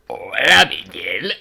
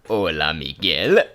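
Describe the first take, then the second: First: It is said in a put-on old lady voice. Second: It is said in the speaker's normal voice.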